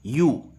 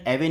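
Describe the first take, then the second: First: "यू" as one syllable, like you; correct pronunciation. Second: "एवे" read as spelt, two syllables; wrong pronunciation. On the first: Teacher showing how ewe really sounds, clearly pronounced "यू". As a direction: say "यू" with the w silent. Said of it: "इसका pronunciation होगा". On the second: Teacher warning against reading ewe by its spelling, mispronounced "एवे". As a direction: say "एवे" as eh-vay, sounding the w. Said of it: "इसका pronunciation एवे नहीं होगा". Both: Shown as a demonstration.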